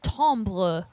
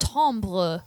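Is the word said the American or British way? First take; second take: British; British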